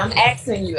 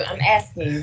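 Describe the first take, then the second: First: Asking said axing, with the k before the s. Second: Said in the usual way. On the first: Shown as a demonstration. Demonstrating the Southern pronunciation to the host, axing. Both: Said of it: "We don't say no S".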